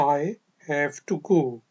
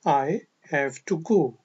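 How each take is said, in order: No difference in how they are said.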